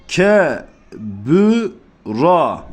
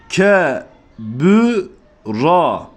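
Both takes have the same delivery.

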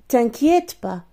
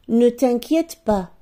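First: The word 'ne' is left out entirely. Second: The word 'ne' is pronounced at the start.

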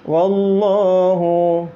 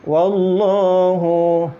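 No difference in how they are said.

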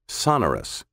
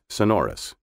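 First: The stress falls on the first syllable. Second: The stress falls on the second syllable. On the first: This began as a British pronunciation. "with the accent on the first syllable instead of the second" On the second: This is the traditional American pronunciation. "The traditional American pronunciation is sonorous"

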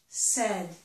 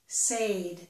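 First: The vowel is the short 'eh' sound. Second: The vowel is the long 'ay' sound. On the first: The speaker calls it right. "but in the past tense, it's said. Eh" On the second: The speaker calls it wrong. "They think that this vowel sound is the A sound in the word say"

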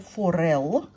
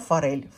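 First: The word ends in a hard L sound. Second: The word ends in a soft L sound. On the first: This is the correct pronunciation of the pear's name. "правильно произносится форел" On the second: This is the speaker's habitual, everyday name for the pears. "Но я их называю форель"

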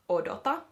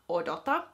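The two takes are said the same way.

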